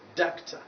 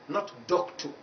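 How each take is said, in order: First: The final vowel is a weak, short schwa. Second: The final vowel is a full, strong vowel. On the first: The speaker calls it right. "Because it is taking this vowel sound" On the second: The speaker calls it wrong.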